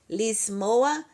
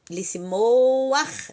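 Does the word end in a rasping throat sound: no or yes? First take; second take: no; yes. First: The word ends softly with no rasping sound. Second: The word ends with a rasping throat sound. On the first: The speaker calls it wrong. "não pode falar lismoa" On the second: The speaker calls it right. "você tem que arranhar mesmo"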